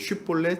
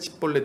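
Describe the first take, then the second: First: The word begins with a sh sound. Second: The word begins with an s sound. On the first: The speaker is a Gileadite. The speaker calls it right. "쉿볼렛이라고 발음해보라고 해서" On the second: The speaker is an Ephraimite. The speaker calls it wrong. "십볼렛이라고 발음하면 이제 알아채고선 이제 죽였다"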